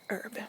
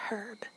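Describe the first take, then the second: First: The H at the start is silent. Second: The H at the start is pronounced. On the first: "I was always told that the H is silent" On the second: "some people say herb"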